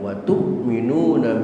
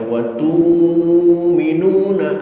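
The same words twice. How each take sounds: First: A glottal stop is said before 'minuna'. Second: The glottal stop becomes a long 'u' sound. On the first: "Bacaan kita" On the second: "hamzahnya diganti dengan waw"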